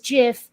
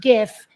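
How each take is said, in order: First: It begins with a soft G, like J. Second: It begins with a hard G sound. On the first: The speaker calls it right. "pronounce it like the peanut butter on purpose" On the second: The speaker calls it wrong.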